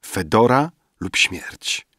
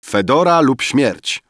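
First: Slow, sleepy delivery; drowsy repetition. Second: High, loud proclamation; declaimed. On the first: Poet denying that he slept, slow and drowsy. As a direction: drag it out as if dozing. Dozing poet mumbles it back. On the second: Poet answering Rafael that he hears, loud declamation. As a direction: declaim it like a battle cry. Waking poet echoes the story. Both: A narrator's reading.

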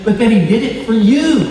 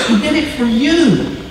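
First: You leaned on, falling; stress on you. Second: He did it for you, higher, weight on you; higher repeat, you stressed. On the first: Preacher to congregation, stressing you. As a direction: press the word you home. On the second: Preacher repeating to congregation, higher on you. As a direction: lift it and land on you. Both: Real, not acted.

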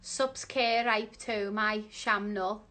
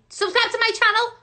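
First: Soft, halting, puzzled reading; slow and unsure, quietly; slow sounding-out. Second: Fast, high, loud shout; sudden high, quick eureka; excited realisation. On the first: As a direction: read word by word, working it out. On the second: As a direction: shout out the answer as it dawns. Suddenly gets the answer. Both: Real, not acted.

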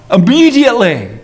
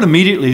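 First: "Immediately" standing alone, strongly stressed; emphatic IMMEDIATELY. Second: Said in the usual way. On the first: Shown as a demonstration. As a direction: proclaim "Immediately" with a big swell on the second syllable. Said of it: "This is emphasized". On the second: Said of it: "the word immediately is used".

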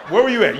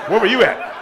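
First: Incredulous. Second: Laughing. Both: Real, not acted.

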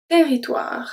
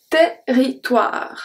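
First: Said in the usual way. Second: Territoire stretched very slowly, open e; slow pronunciation demo. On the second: Shown as a demonstration. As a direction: unpack Territoire slowly for students. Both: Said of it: "the E is going to be pronounced as a E".

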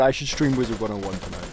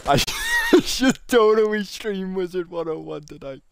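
First: Said in the usual way. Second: Put-on high squeal. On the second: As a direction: repeat it in a silly, high excited voice. Repeats idea in put-on voice.

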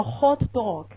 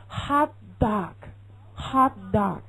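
First: "hot dog" with rounded British o sounds. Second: "hot dog" slow, with a wide-open ah; American hot dog. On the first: Teacher shows how British people say hot dog. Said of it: "英国人会说hot dog". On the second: Teacher shows how Americans say hot dog. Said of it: "美国人会说hot dog". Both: Shown as a demonstration.

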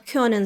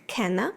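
First: Said in the usual way. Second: «кена» with plain e for the umlaut; Swabian «кена». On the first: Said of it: "умлаути у швабському діалекті майже відсутні". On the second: Shown as a demonstration. Teacher shows Swabian können, «кена» without the umlaut. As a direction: say «кена», unrounded e, ending in a. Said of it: "звучить як".

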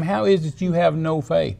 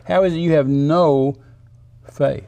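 First: Higher, running straight through "no faith"; acted reproachful question, no pause before "faith"; exasperated question in one go; upset rebuke. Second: "no" held, then a pause before "faith"; emphatic "no", separated from "faith"; stress on NO. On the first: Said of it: "he got upset at the disciples". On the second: Acted. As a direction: lean on "no" and let "faith" drop in after a beat. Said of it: "No, no faith. Zero faith".

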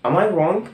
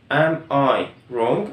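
First: Said in the usual way. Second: Am I wrong stretched out word by word; slow careful classroom question; very slow teaching model. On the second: Shown as a demonstration. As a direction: drag out Am I wrong slowly for learners. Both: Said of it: "فبقول".

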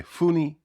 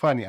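First: «funny» as «funi» with a U; wrong U. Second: «funny» as «fani»; open A. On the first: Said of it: "а не funny". («funny» як «фуні», неправильно) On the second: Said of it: "прочитаєте як funny". («funny» як «фані») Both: Shown as a demonstration.

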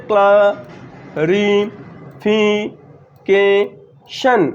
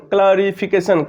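First: "clarification" very slowly in five beats with long gaps; syllable by syllable. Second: Said in the usual way. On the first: Shown as a demonstration. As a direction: isolate and stretch each syllable of "clarification". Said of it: "দেখো কতবার উচ্চারিত হচ্ছে". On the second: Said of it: "পাঁচবারে উচ্চারিত হচ্ছে".

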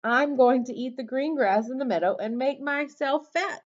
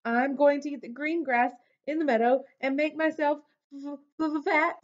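First: High little goat voice; high-pitched, unbroken goat reply. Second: High, quick, stammering on the last word; rushed high-pitched nervous stutter; shaking with fear. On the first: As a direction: answer brightly as a small goat, without stammering. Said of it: "said the goat". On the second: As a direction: answer as a frightened goat stuck on "fat". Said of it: "shook so hard he almost fell down". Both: A narrator's reading.

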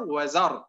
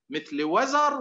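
First: Said in the usual way. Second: وزر lifted higher; raised stress. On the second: Shown as a demonstration. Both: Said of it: "أذكركم بأمثلة تعرفونها".

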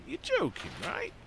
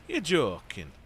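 First: High-pitched disbelief; incredulous. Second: Said in the usual way. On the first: Real, not acted. Player balking at waiting till a hundred percent, incredulous.

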